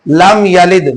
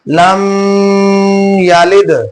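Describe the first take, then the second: First: The m is said plainly without a hum. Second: The m is held with a nasal hum. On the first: The speaker calls it right. "मीम साकिन में गुना नहीं करेंगे" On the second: The speaker calls it wrong. "बच्चे क्या करते हैं? ... तो ये गलत है"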